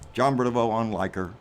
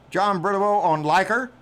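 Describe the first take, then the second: First: It is said in a put-on radio-announcer voice. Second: It is said in a normal speaking voice.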